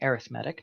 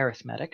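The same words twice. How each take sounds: First: It has the stress pattern of the adjective. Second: The same.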